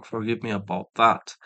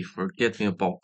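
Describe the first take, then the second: First: "forgive" said correctly after the slip; "forgive me about that" as the fixed version; corrected word. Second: "Forget" said where "forgive" was meant; "Forget me about" as a fumbled slip; slip of the tongue. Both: Real, not acted.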